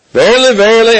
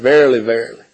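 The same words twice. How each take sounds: First: "Verily, verily" lifted higher and louder, both words weighted; emphatic verily. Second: Said in the usual way. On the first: Shown as a demonstration. Preacher drives home Jesus' words with emphasis. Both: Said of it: "Emphasis, right?".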